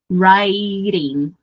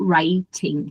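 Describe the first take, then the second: First: It is said with an American accent. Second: It is said with a British accent. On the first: "vou de novo usar a pronúncia do inglês americano" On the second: "também está correto"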